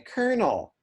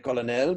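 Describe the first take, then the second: First: The middle consonant is an R sound. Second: The middle consonant is an L sound. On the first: This is how English speakers say it. "but we say" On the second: This is how the French say it. "in French, you will say"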